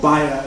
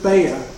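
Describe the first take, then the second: First: The name is said with a German pronunciation. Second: The name is said with an English pronunciation.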